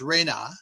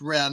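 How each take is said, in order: First: The word is said as two syllables. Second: The word is said as one syllable. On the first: The speaker calls it right. "but properly it's Rena" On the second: The speaker calls it wrong. "the word is pronounced Ren"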